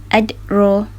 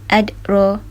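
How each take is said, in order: Both takes have the same delivery.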